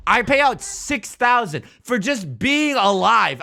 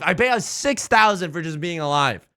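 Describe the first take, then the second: First: Slow, loud, high hammed-up complaint; mock outrage. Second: Said in the usual way. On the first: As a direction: drag out the grievance dramatically. Repeats the complaint, first dragged out.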